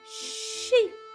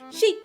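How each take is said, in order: First: The word is said slowly. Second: The word is said very fast.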